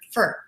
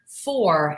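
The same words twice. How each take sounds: First: The word is said fast with almost no vowel. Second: The word is said slowly with a full vowel. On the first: The speaker calls it right. "so quickly" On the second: The speaker calls it wrong. "a full pronunciation like that"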